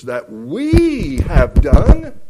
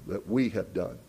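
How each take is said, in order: First: "we" stretched high and loud, "done" kept forceful; stress on "we". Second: Said in the usual way. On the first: Shown as a demonstration. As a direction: lean hard and long on "we". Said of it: "So he's emphasized". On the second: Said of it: "unless you're gonna emphasize".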